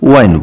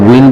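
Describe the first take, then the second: First: The vowel is an eye sound. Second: The vowel is a short i sound. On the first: It carries a different meaning. "আনটো হৈছে ওয়াইন বুলি" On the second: It means moving air. "এটা হৈছে উইন বুলি"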